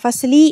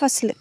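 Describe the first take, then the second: First: The word ends with a final short vowel. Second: The word ends on the consonant l. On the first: This is the full written form with the case ending. "ஃபஸ்லி அப்படின்லாம் யாரும் பேச மாட்டாங்க" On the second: This is the everyday spoken form. "ஹுவ ஃபில் ஃபஸ்ல் அவ்வளோதான்"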